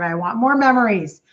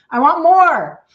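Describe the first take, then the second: First: Said in the usual way. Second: More punched high and loud; stress on more. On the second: Real, not acted. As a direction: burst out on more, louder and higher.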